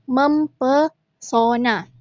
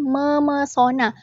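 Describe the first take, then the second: First: The p sound is kept after mem. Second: The p sound is dropped after mem. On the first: The speaker calls it wrong. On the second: The speaker calls it right. "harus dibaca luluh"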